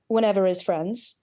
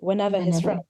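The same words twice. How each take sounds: First: The H is dropped and linked with R. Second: The H in 'his' is clearly pronounced. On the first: "if we're dropping that H" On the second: "For a speaker that doesn't drop the H"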